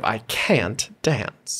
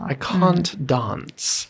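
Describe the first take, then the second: First: The vowel in can't is a flat a. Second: The vowel in can't is a broad ah. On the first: "instead of" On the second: "ah sound"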